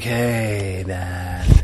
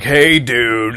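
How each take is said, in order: First: It is said in a relaxed, laid-back voice. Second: It is said in a louder, bigger voice.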